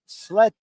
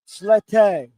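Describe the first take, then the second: First: The name is said fast with a clipped vowel. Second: The name is said with a softer, longer E. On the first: The speaker calls it wrong. "if you say it fast, it doesn't sound great" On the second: The speaker calls it right. "you have to be softer on the E"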